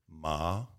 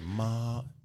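First: The pitch rises like a question. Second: The pitch stays high and level. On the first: "second tone. That's like you're asking a question"

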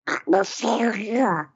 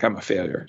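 First: It is said in a Donald Duck voice. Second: It is said in a normal voice.

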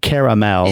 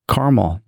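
First: The word is said with three syllables. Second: The word is said with two syllables. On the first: The speaker calls it wrong. "It's not caramel" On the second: The speaker calls it right.

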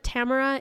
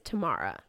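First: The name carries an Americanized stress pattern. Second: The name carries its original stress pattern. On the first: The speaker calls it wrong. "Instead of Tamara" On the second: The speaker calls it right. "it's Tamara"

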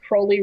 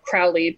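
First: The first syllable rhymes with 'holy'. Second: The first syllable does not rhyme with 'holy'. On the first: The speaker calls it right. "it's Crowley rhymes with holy" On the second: The speaker calls it wrong. "or Crowley, people call him"

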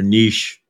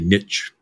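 First: Niche is said the British way. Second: Niche is said the American way.

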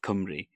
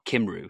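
First: The vowels are read with Welsh letter sounds. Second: The vowels are read with English letter sounds. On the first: The speaker knows Welsh. The speaker calls it right. "instead of Cymru" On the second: The speaker does not know Welsh. The speaker calls it wrong. "or Cymru, something like that"

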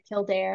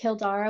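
First: The name ends with an 'air' sound. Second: The name ends with an open 'ah' sound. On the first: This is the anglicized form most people use. "most people say Kildare, and that's kind of the anglicized name" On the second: This is the more Irish form of the name. "Kildara would be the more Irish way of saying it"

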